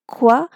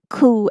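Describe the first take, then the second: First: A k sound followed by a w. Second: A plain k sound with no w. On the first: "But we say it qua" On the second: "I have seen teachers saying this uh, pattern as ku"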